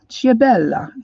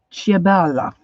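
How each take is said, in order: First: Ciabella again with a slightly fuller Italian accent. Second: A light Italian accent on Ciabella, falling at the end. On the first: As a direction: lean a bit harder into the Italian Ciabella. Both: Shown as a demonstration. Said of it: "get my Italian accent going here".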